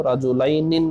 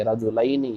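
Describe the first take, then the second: First: "रजुलैनिन" ending in an extra -in, as a mistake; wrong ending demonstrated. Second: "रजुलैनी" ending in an open -ni; correct dual ending. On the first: Teacher showing students the form not to say, "रजुलैनिन" with final -nin. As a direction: say "रजुलैनिन" with a closing nin sound. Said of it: "रजुलैनिन नहीं बोलेंगे". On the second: Teacher giving students the correct dual, "रजुलैनी" ending on -ni. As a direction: say "रजुलैनी" with ai, then ni, no final n. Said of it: "या नून के साथ". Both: Shown as a demonstration.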